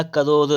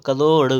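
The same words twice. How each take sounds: First: "करोड़" ending in plain dental r/d; wrong r sound. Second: "करोड़" loud, ending in retroflex ṛ; corrected flap. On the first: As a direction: end "करोड़" without the curled flap. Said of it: "लिखा करोड़ नहीं". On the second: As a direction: punch the curled final ṛ of "करोड़". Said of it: "करोड़ होता है". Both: Shown as a demonstration.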